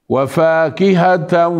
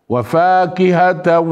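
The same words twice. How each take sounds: Both takes have the same delivery.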